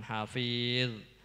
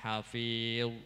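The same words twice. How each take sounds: First: The consonant is light, with unrounded lips. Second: The consonant is heavy, with rounded lips. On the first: The speaker calls it wrong. "jangan hafil. Kalau hafil itu berarti bukan zo tapi zal" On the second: The speaker calls it right. "harus dimoncongkan"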